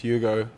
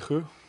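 First: The name has an English pronunciation. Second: The name has an Afrikaans pronunciation. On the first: "if you speak English, you can't say Hugo" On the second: "In Afrikaans is my name eigenlijk [name]"

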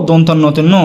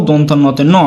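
The two takes are said the same way.

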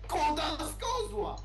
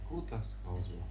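First: The phrase is shouted very loudly. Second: The phrase is said softly and quietly. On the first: "krzyczał coraz głośniej" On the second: "mówi po cichu"

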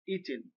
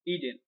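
First: The middle consonant is a clear t sound. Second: The middle consonant is a soft d-like flap.

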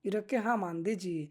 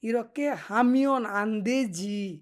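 First: The verb is shortened to one syllable, 'ham'. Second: The verb is said in full as 'hamyeon'.

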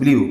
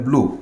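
First: The vowel glides like 'ee-oo'. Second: The vowel is a plain 'oo'. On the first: The speaker calls it wrong. "এটার past tense আমরা বলি হচ্ছে ব্লিউ" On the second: The speaker calls it right. "কিন্তু উচ্চারণটাও কিন্তু হবে ব্লু"

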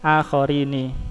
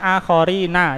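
First: The final syllable is pronounced ni. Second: The final syllable is pronounced na. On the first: This form departs from the rule. "Ini sudut syad keluar dari kaidah" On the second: This is the regular form by the rule. "kalau secara asal kan akhorina"

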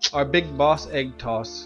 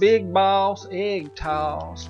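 First: It is said in a plain accent. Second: It is said in a South Carolina accent.

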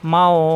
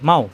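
First: The au vowel is held long and stretched. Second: The au vowel is short and not stretched. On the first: The reciter stops here. "কিন্তু এখানে অক্ষ আসছে ... এখানে হবে মাও" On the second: The reciter is not stopping here. "কোনো টান নেই মাও"

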